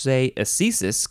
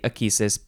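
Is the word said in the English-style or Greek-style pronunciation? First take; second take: English; Greek. First: The C is said the usual English way. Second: The C is said in a Greek-style way. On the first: "in, I guess, proper English, say ecesis, because that's how the C is supposed to be pronounced in this context" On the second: "some people also say achesis, which I'm guessing is from a Greek thing"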